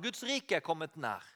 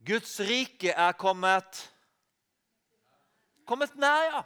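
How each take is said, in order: First: Softer, falling, almost confiding; soft repeat. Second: Very slow, weighty, each word laid down; slow solemn quote. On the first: Preacher repeating Jesus' words, softly and intimately. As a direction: let it drop softly as a quiet echo. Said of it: "Det sa han". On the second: Preacher quoting Jesus to the congregation, slow and solemn. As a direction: draw out Guds rike with great weight. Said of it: "Jesus sa jo". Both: Acted.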